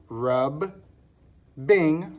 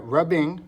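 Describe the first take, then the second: First: "rub, bing" split by a clear pause; syllable by syllable. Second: Said in the usual way. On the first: Shown as a demonstration. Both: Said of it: "So we have the double B".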